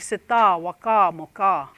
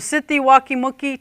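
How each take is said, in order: First: Each number word ends in an a sound. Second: Each number word ends in an ee sound. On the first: This is a third community's dialect. "We say sita, waka, moka" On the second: This is the speaker's own dialect. "we say sitti, waki, muki"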